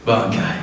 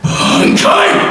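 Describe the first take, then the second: First: It is said quietly. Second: It is shouted loudly.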